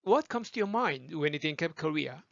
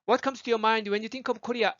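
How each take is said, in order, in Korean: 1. 영어 원어민식 발음으로 말했어요. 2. 한국식 발음으로 말했어요.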